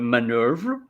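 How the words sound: It is said in a British accent. "the U K, which is uh, manœuvre"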